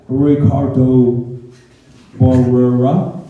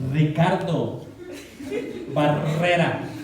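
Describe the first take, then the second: First: The name is said with an English accent. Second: The name is said with a Spanish accent. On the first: Someone who cannot pronounce the name said it. The speaker calls it wrong. "pronunciaba mi nombre, decía" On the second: The name's owner said it. The speaker calls it right. "no, no"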